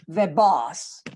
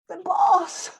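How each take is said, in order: First: The tone sounds doubtful and displeased. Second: The tone sounds fearful and worried. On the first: The arrival is unwelcome news. "I have changed my, my tone of voice" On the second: The person who arrived is feared. "I'm afraid of him"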